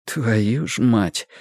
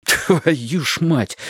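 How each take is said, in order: First: Slow, despairing "Твою ж мать"; hopeless. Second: Angry whisper. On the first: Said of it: "с безнадёгой в голосе". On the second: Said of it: "шеплю злобно". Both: A narrator's reading.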